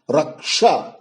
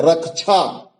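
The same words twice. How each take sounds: First: रक्षा said "rak-sha", clean ksh; correct pronunciation. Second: रक्षा said "rak-chha"; common mispronunciation. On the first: Teacher correcting the error, रक्षा as "raksha". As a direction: say रक्षा with sh after the k. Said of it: "जो कि शुद्ध शब्द होगा". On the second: Teacher showing the usual error, रक्षा as "rakchha". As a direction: put chh in place of sh in रक्षा. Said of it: "कछा भी बोला जाता है". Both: Shown as a demonstration.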